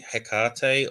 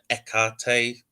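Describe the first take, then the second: First: The name starts with an H sound. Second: The name starts with a vowel sound. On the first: "I say Hecate" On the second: "the ancient Greek version, there was no hard H"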